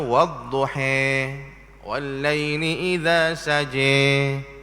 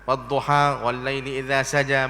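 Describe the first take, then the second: First: The long a vowels lean toward an e sound. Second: The long a vowels are said as plain a. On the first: This follows another recognised reading tradition. "ada bacaan mazhab imam yang lain, dia baca" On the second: This follows the usual local reading. "kita wadduha wallaili idza saja begitu je"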